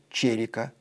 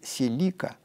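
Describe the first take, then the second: First: The stress is on the first syllable. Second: The stress is on the second syllable. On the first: This is how it is said in Japan. "В Японии говорят «черика», ударение на «е»" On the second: This is how it is said in English-speaking countries. "В англоязычных странах произносят «Селика», ударение на «и»"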